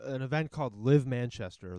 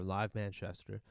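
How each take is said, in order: First: Said in the usual way. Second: "Live Manchester" said slower and softer, savoring the name; slow mocking repeat. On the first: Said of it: "first mention of event name". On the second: Shown as a demonstration. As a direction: drag out "Live Manchester" with dry mockery.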